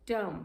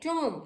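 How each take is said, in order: First: TOMB as short TUM, silent B; taught pronunciation. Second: TOMB with an O, as TOM; wrong pronunciation. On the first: Teacher correcting students, TOMB as short TUM. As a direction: say TOMB with a brief central vowel. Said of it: "this is tomb". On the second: Teacher quoting the mistake, TOMB as TOM. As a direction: round TOMB to rhyme with "Tom". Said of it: "this is not tomb". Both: Shown as a demonstration.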